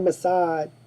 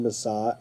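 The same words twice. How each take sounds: First: It ends without the soft 'zh' sound. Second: It ends with the usual soft 'zh' sound. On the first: "They can't say saj. So they say" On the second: "They don't say massage"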